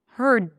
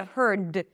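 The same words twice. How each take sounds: First: The final D is held, not released. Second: The final D is fully released. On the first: The speaker calls it right. "I don't release the D" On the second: The speaker calls it wrong. "I don't say heard"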